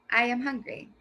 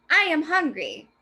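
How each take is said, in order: First: Said in the usual way. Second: Loud, higher excited exclamation; exclaimed. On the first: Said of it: "Those are two different ways to read that sentence". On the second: Shown as a demonstration. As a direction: exaggerate it like a shout. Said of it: "as loud or exaggerated".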